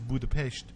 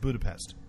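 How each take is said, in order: First: It is said with a slight Russian accent. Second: It is said with an American accent. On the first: The speaker's foreign origin shows through. "she says it with a slight Russian accent" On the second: "so American versus betraying the Russian"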